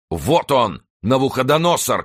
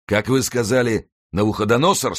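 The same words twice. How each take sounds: First: High, loud cry pointing someone out; soldier's shout. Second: Raised question through a nasty smile; menacing smile. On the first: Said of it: "крикнул один из латников Кромвеля". (громкий высокий крик) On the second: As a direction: ask it high, with sinister relish. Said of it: "спросил Мардаунт с ужасной улыбкой". (с ужасной улыбкой, повышенным тоном) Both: A narrator's reading.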